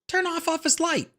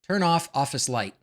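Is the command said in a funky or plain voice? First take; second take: funky; plain. First: It is said in an odd, funky voice. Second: It is said in a plain, ordinary voice.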